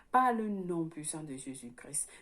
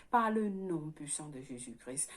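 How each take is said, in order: No difference in how they are said.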